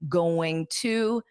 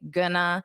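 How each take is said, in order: First: Both words are said fully and separately. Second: The words are merged into one reduced word. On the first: The speaker calls it wrong. "we don't say going to" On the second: The speaker calls it right. "we say gonna in natural speech"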